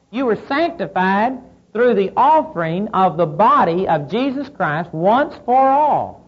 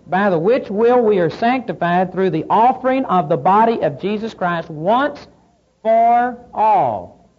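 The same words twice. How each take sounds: First: "once for all" slowed and leaned on; stress on once for all. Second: Said in the usual way. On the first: Shown as a demonstration. Preacher driving home "once for all" to the congregation, slow and stressed. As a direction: land hard on "once for all" at the end. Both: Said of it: "the very emphasis on the word".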